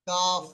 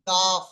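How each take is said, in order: First: The word ends with a soft breathy f. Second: The same.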